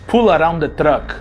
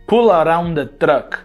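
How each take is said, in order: First: The R in 'around' is dropped. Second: The same.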